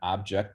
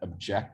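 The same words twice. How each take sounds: First: The stress is on the first syllable. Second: The stress is on the second syllable. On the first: "the first syllable is stressed" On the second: "the second syllable is stressed"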